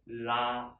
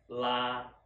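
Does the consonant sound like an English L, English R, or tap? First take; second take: tap; English L. First: It begins with a tap, tongue slightly further back. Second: It begins with an English-style L sound. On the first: "move it a little bit, just inside. Then you can make this correct sound" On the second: "we want to use this L sound instead of R"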